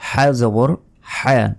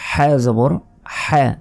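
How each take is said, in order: Both takes have the same delivery.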